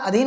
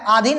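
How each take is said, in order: First: अधीन with a short a at the start; corrected अधीन, first vowel short; correct spelling read out. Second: आधीन with a long aa at the start; wrong spelling read out. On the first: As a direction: say अधीन, opening on a brief "a". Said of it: "आधीन नहीं होता है". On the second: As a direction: misspelt आधीन, first vowel long. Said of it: "ये अशुद्ध है". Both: Shown as a demonstration.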